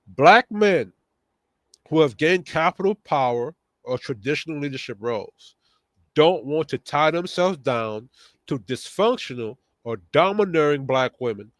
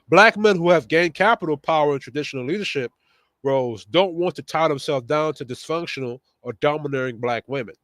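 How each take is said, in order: First: It is read slowly. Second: It is read at a normal pace.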